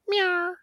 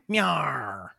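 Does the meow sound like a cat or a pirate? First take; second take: cat; pirate. First: It is a high, cat-like mew. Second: It is a gruff pirate growl with a rolled R. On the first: A cat is making the sound. "if it was a cat doing it" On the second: A pirate is making the sound. "if it was a man meowing, a pirate meowing"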